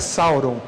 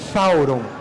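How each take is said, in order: First: The name begins with an s sound. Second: The name begins with a th sound. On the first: The speaker calls it wrong. "a pronúncia de Sauron correta não é Sauron" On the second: The speaker calls it right. "é Thauron. Thauron se escreve também com T H"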